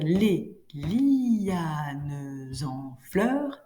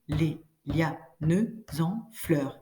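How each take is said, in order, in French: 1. Lianes se dit en deux syllabes. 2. Lianes se dit en une seule syllabe. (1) "ça va nous permettre de faire douze" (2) "Et ça, ça fait onze"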